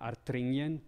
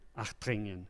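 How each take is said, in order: First: The consonant after the first vowel is an R. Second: The consonant after the first vowel is an H. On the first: "invece come R" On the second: "pronunciano questa R anche come, come H"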